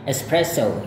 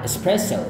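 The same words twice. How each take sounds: First: Espresso said American style. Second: Espresso said British style. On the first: Teacher repeats the American espresso. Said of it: "gaya Amerika". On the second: Teacher repeats the British espresso. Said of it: "British adalah". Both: Shown as a demonstration.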